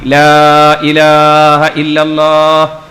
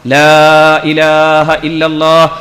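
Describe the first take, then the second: Both takes have the same delivery.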